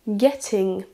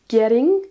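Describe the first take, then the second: First: The middle t is a clear t sound. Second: The middle t sounds like a quick d. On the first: "avec un accent britannique" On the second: "avec un accent américain"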